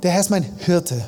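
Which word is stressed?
Hirte. The stress is on Hirte.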